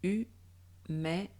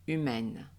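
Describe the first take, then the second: First: Humaine split into separate syllables, slow; hu-mai-ne, spaced out for learners. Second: Said in the usual way. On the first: Shown as a demonstration. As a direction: break humaine into its syllables with pauses. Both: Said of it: "En découpant les syllabes".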